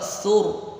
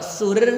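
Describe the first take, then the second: First: The r is heavy and full. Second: The r is light and thin. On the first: The speaker calls it right. "berarti tebal, alias tafkhim" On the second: The speaker calls it wrong. "berarti dia tipis"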